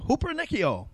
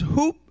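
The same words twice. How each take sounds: First: "hupernikio" run together as one quick word; said fast. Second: "hupernikio" broken into separate, careful syllables. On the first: Preacher showing off the word for conqueror, "hupernikio" said fast. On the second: Preacher teaching the word for conqueror, "hupernikio" syllable by syllable. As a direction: sound out "hupernikio" piece by piece. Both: Shown as a demonstration. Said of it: "Say that fast".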